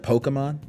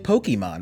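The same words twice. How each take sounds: First: The stress falls on another syllable. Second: The stress falls on the E syllable.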